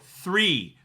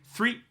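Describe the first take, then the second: First: The word is held long and drawn out. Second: The word is cut short and quick.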